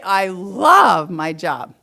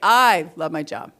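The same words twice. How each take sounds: First: It sounds warm and enthusiastic. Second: It sounds hesitant and half-hearted. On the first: The speaker really likes the job. "do I like my job? Yeah" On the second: The speaker is unsure about liking the job. "It's kind of eh, not sure"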